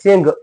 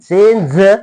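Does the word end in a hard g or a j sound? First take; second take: hard g; j sound. First: The word ends in a hard g sound. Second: The word ends in a j sound. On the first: The speaker calls it wrong. "चेंग नाही" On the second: The speaker calls it right.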